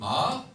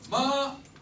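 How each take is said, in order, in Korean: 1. 중간 음에서 높은 음으로 올라가요. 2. 높은 음으로 평평하게 유지돼요. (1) "산 맞자는 마" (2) "어머니 맞자는 마"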